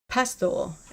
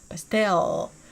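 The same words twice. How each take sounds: First: The stress is on the first syllable. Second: The stress is on the second syllable. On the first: "with the emphasis on the first syllable" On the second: "versus the second"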